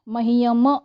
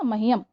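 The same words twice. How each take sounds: First: The final m is followed by a vowel. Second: The final m is cut off without a vowel. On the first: The speaker calls it wrong. "मह्यम ऐसा नहीं कहा है" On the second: The speaker calls it right. "तुरंत म को stop कर दिया"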